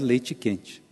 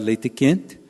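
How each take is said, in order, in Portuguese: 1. Os sons de 't' são pronunciados como 'ch'. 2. Os sons de 't' são simples, sem qualidade de 'ch'. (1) "passando a pronunciar ... de T para Tchê" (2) "deixando de pronunciar"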